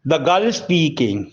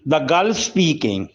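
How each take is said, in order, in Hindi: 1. शब्द 'is' को छोटा करके दूसरे शब्द में मिला दिया जाता है। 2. शब्द 'is' को छोटा करके दूसरे शब्द में मिला दिया जाता है।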